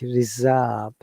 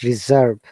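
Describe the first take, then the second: First: The R after the vowel is silent. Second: The R after the vowel is pronounced. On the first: The speaker calls it right. "British English reserve" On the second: The speaker calls it wrong. "not reserve"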